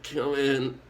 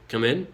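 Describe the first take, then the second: First: It is said in a feeble, whining voice. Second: It is said in a plain, ordinary voice. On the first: The speaker calls it right. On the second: The speaker calls it wrong.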